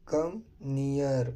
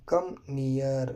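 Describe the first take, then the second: No difference in how they are said.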